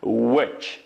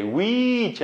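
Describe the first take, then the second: First: "which" with a short, lax i; correctly modelled "which", no long ee; short vowel. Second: "which" with a long drawn-out "wee" vowel; mispronounced "which", long ee; wrong vowel. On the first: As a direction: say "which" with a brief vowel, ending in ch. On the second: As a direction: stretch "which" into "weee-ch". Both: Shown as a demonstration. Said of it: "which emas".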